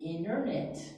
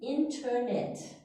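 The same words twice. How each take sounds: First: The t is not clearly pronounced. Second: The t is clearly pronounced. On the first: "we say internet" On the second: "the British say internet"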